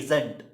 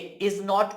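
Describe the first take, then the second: First: It is said as one contracted word. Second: It is said as two full words. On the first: "हम बोलते हैं इजंट" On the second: "इज नॉट को"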